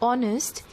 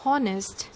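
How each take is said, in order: First: The word begins with no H sound. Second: The word begins with an audible H sound. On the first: The speaker calls it right. "H is silent" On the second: The speaker calls it wrong. "We don't say honest"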